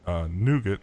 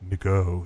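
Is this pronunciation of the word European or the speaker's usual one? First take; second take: usual; European. First: The word is said in the speaker's usual pronunciation. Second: The word is said in a European-style pronunciation. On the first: "I call it Nougat" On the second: "Nigo if you're European"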